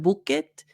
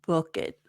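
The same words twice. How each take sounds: First: The vowel in book is rounded, like oo. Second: The vowel in book is short and relaxed. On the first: The speaker calls it wrong. "Instead of book it" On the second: The speaker calls it right. "relax it"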